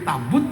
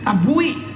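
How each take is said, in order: First: The word ends in a -but sound. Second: The word ends in a -bui sound.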